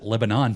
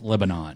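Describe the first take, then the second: First: It is said the Pennsylvania way. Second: It is said the way the country's name is. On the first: This is how people in Pennsylvania say it. "In Pennsylvania, they pronounce it Lebanon" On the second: This is how the country's name is said. "The country is pronounced Lebanon"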